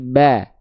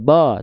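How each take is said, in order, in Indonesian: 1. Vokal a terdengar tipis dan cerah. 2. Vokal a terdengar lebar dan terbuka. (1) "tapi ba" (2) "tidak ba"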